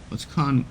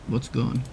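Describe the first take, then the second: No difference in how they are said.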